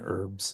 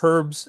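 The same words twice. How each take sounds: First: The word begins with a vowel, no H. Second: The word begins with an audible H sound. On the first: The speaker said it his own way. "we Americans keep the H silent" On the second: Someone from another country said it. "they would go, excuse me, doctor"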